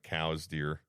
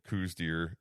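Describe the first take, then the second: First: The first word sounds like 'cows'. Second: The first word does not sound like 'cows'. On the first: The speaker calls it right. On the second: The speaker calls it wrong. "the mispronunciation"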